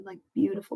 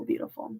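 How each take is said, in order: First: Said in the usual way. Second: Breathy whispered echo, much softer. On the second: Real, not acted. Savouring a moving moment, whispered echo. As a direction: let the word fade into a whisper.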